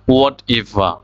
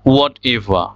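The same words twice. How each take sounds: The two takes are said the same way.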